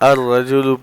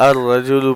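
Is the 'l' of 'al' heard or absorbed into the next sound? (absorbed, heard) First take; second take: absorbed; absorbed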